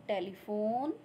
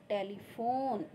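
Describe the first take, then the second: The two takes are said the same way.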